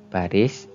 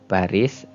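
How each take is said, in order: Both takes have the same delivery.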